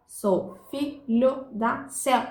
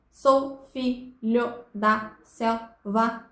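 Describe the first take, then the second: First: Slow "Sou filho da céu", cut off after "sel"; counting to stressed syllable. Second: Very slow "Sou filho da selva", every syllable apart; evenly spaced syllables in "Sou filho da selva"; grammatical syllable division. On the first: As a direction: beat out each syllable and stop dead on "céu". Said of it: "conta-se até a última sílaba tônica". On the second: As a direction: count out "Sou filho da selva" down to a separate final "va". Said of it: "distribuir as sílabas gramaticais". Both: Shown as a demonstration.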